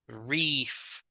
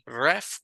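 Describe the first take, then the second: First: The vowel is a long ee sound. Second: The vowel is a short e sound. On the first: The speaker calls it right. "La doble E hace que suene, ¿verdad? Como I" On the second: The speaker calls it wrong. "No es re, ref"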